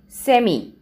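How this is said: It is said in a British accent. "whereas in British English, we say"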